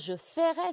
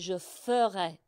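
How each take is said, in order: First: The first vowel of the verb is not eu-like. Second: The first vowel of the verb sounds like eu. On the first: The speaker calls it wrong. "ce n'est pas" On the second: The speaker calls it right. "c'est comme le son heure"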